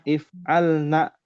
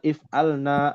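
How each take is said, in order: First: The final vowel is said short. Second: The final vowel is said long. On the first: The speaker calls it right. "naknya pendek ya" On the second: The speaker calls it wrong. "bukan if'alna, bukan mad tabi'i"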